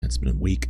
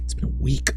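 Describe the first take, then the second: First: Said in the usual way. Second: Lifted higher on week; higher take. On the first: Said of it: "greeting chat after a week". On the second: Shown as a demonstration. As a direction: streamer greeting viewers in a sing-song higher voice. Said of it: "repeats greeting in higher voice".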